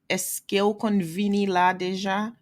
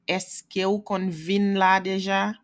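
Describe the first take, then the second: First: The verb is said in full as vini. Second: The verb is shortened to vin. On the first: "Vin is short for vini" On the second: "Vin is short for vini"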